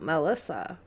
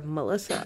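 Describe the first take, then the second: First: "Melissa" with MEL as in bell; full E in Melissa. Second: "Melissa" as muh-LISS-uh; reduced vowel in Melissa. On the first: Host comparing her name's pronunciations, "Melissa" said MEL-issa. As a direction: say "Melissa" starting with a clear MEL. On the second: Host comparing her name's pronunciations, "Melissa" said muh-LISS-uh. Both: Shown as a demonstration. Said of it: "how do you say it?".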